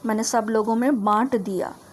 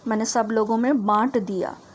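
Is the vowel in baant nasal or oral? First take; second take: nasal; nasal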